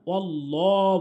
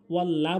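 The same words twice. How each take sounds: First: ওয়াল্লাহ with a full, rounded "law"; correct heavy lam. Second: ওয়াল্লাহ with a thin open "laa"; wrong vowel. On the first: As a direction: round and darken the end of ওয়াল্লাহ. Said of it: "বলতে হবে". (ওয়াল্লাহ মোটা ল দিয়ে) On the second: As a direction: say ওয়াল্লাহ with light l and a. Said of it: "বলবো না". (ওয়াল্লাহ পাতলা লা দিয়ে) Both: Shown as a demonstration.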